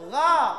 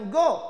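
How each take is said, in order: First: The vowel is open, lips unrounded. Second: The vowel is rounded like o. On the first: The speaker calls it right. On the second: The speaker calls it wrong.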